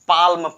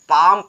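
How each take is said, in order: First: An L sound is heard before the M. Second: The L is silent, heard as pam. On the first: The speaker calls it wrong. "ना कि पाल्म पढ़ेंगे" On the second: The speaker calls it right. "पाम पढ़ेंगे"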